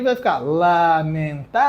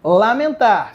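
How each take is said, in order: First: "lamentar" split slowly into syllables, stress on the last. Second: Said in the usual way. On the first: Shown as a demonstration. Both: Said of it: "Se você dividir".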